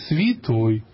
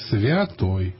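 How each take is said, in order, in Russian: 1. Первая гласная редуцируется до звука 'ee'. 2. Первая гласная — чёткий звук 'ya'. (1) "даже священнослужителей" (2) "Хотя написано святой"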